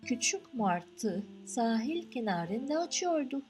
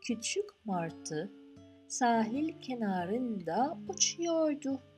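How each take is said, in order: First: The sentence is read at a fast pace. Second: The sentence is read at a slow pace. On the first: "read it quickly" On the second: "I repeat it slowly"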